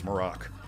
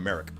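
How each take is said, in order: First: The stress is on the second syllable. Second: The stress is on the first syllable. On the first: The speaker calls it right. "the inflection is on the latter half of the name" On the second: The speaker calls it wrong. "I was calling him Merrick"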